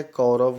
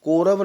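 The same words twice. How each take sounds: First: कौरव with full "au", as kau-rav; correct diphthong. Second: कौरव said as ko-rav, plain "o"; wrong first vowel. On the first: Teacher correcting students, कौरव slowly as kau-rav. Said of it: "कौरव होता है". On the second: Teacher showing students the mistake, कौरव as ko-rav. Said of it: "कौरव नहीं होता है". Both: Shown as a demonstration.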